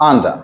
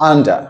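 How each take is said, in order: No difference in how they are said.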